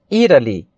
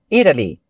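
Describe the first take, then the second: Both takes have the same delivery.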